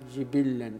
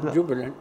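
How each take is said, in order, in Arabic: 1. الحركتان الأوليان كلتاهما كسرة، مع تشديد اللام. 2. ضمة واحدة، لا حركة بعد الباء، ولام واحدة غير مشددة. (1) "بكسر الجيم والباء وتشديد اللام" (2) "بضم الجيم ساكنة الباء خفيفة"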